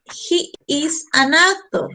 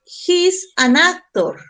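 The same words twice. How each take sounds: First: "He is" said as two separate words, the "is" stretched; teacher expanding "He's" into "He is"; full form he is. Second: "He's" run together as one short syllable, slow and clear; slow teacher reading of the short form "He's"; contracted he's. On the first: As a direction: spell out "He is" in full, unhurried. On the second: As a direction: say "He's" as a single contracted word. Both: Shown as a demonstration.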